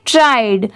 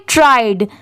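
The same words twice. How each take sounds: First: ट्राइड with the final d clearly said; correct pronunciation. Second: ट्राइड said with a clear final d sound; correct pronunciation. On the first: Teacher repeating ट्राइड for students after the spelling. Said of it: "तो इसे क्या पढ़ेंगे". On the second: Teacher showing students the right way to say ट्राइड. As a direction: sound out ट्राइड, ending on a distinct d. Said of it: "इसे क्या पढ़ेंगे". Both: Shown as a demonstration.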